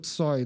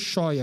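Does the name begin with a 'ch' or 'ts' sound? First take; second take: ts; ch. First: The name begins with a 'ts' sound. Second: The name begins with a 'ch' sound. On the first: This is the Russian form of the name. "na pronúncia russa fica o Tsoi" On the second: This is the local form of the name. "o nosso Choi aqui"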